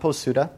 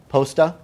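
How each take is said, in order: First: The middle u vowel is clearly pronounced. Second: The middle u vowel is silent. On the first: The speaker calls it wrong. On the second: The speaker calls it right. "The U is unvoiced"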